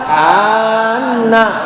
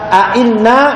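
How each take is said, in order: First: The second hamza is smoothed into a long vowel. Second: Both hamzas are said with a glottal stop. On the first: "Hamzah yang kedua diganti alif" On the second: "bitahqiqil hamzatain"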